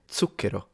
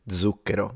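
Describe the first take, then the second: First: The word begins with a different consonant sound. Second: The word begins with a z sound. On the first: This is how Tuscany says it. "in Tuscany, zucchero. And that's in theory, according to diction, the correct way" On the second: This is how many other regions say it. "pronounced zucchero with a z"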